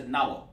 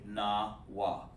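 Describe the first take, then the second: First: "Nawa" rushed into one blurred word; too quick. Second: "Nawa" drawn out low and soft, na, then wa; slow, broken down. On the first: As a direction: rattle off "Nawa" with no break between Na and wa. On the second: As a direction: stretch "Nawa" into two separate, unhurried syllables. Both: Shown as a demonstration. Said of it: "You said too quick".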